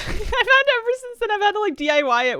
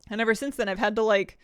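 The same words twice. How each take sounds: First: Laughing. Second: Winded, gasping between words; out of breath. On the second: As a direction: speak short of breath. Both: Real, not acted. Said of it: "sorry, I'm out of breath".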